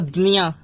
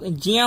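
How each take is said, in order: First: The syllable begins with d followed by n. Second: The syllable begins with a j sound. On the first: "Maharashtra में चले जाओगे तो" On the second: "शुरू में ज ही आना चाहिए"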